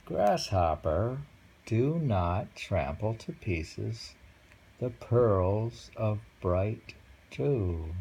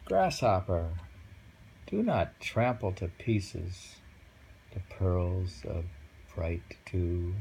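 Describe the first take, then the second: First: Very slow, savoured haiku reading; poem recital. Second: Slow, measured haiku reading; poem recital. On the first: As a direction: let each word hang. Rereads the haiku. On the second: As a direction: read it gently, word by word. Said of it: "And the poem says". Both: Acted.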